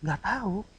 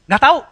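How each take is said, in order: First: Soft, gentle admission of not knowing; mild reply. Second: Loud, high, abrupt retort; snappy dismissal. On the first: Preacher showing how intonation changes words, mild reply. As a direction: say it quietly, without any edge. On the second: Preacher showing how intonation changes words, snappy dismissal. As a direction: throw it out sharply. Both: Shown as a demonstration. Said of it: "Kan beda ya".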